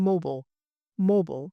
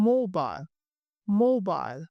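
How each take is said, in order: First: "mobile" as moh-bul; American mobile. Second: "mobile" as moh-bile; British mobile. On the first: Teacher drilling American mobile as moh-bul. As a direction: reduce the end of "mobile" to bul. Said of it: "and in American". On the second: Teacher drilling British mobile as moh-bile. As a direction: rhyme the end of "mobile" with mile. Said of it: "in British". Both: Shown as a demonstration.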